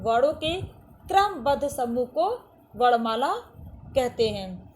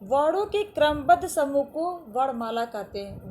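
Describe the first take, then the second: First: वर्णों के क्रमबद्ध समूह को वर्णमाला कहते हैं broken into chunks with pauses, stress on वर्णों and क्रमबद्ध; slow emphatic repeat. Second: Said in the usual way. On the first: Shown as a demonstration. Teacher repeats the definition slowly to children, phrase by phrase. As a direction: dictate it phrase by phrase, pausing. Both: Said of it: "दूसरे शब्दों में देखा जाए तो".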